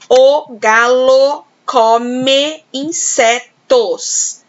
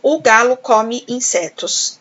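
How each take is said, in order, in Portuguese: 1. Cada vogal soa plenamente, exatamente como está escrita. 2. O O átono soa como U, as vogais são reduzidas. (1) "para eu ler o som do O, do E, tudo certinho, eu vou ler assim" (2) "Mas normalmente a gente fala assim"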